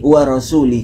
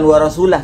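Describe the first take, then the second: First: The word ends with an i sound. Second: The word ends with an ah sound. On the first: The speaker calls it right. "tetapi wa rasuli" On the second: The speaker calls it wrong. "ini bukan wa rasulah sebenarnya bacaannya"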